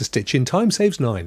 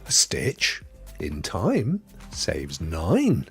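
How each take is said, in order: First: It is said without a pause after 'time'. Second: It is said with a pause after 'time'.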